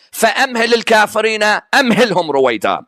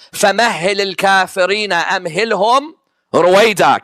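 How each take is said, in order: First: فَأَمْهِلِ said "fa-amhili" with a glottal stop, no doubled h; rushed, accented reading of فَأَمْهِلِ; imitating accented reading. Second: فَمَهِّلِ recited with doubled h, "fa-mahhili", as the true verse; quick, correct Quranic recitation of فَمَهِّلِ. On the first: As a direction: recite it as the man with the accent did, "فَأَمْهِلِ". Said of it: "because of his accent, he was saying". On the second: Shown as a demonstration. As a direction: recite "فَمَهِّلِ الْكَافِرِينَ" with a clear shadda on the h. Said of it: "The verse is what?".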